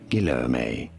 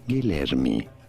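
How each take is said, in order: First: It is said with English pronunciation. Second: It is said with Portuguese pronunciation. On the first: "is how it's generally pronounced in English" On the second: "in Portuguese, this is said as"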